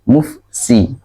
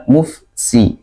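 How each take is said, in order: The two takes are said the same way.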